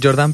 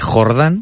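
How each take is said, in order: First: The J is said the Catalan way. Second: The J is said the Spanish way. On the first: "catalán debería ser Jordán" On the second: "aquí en castellano la J se dice Jordán"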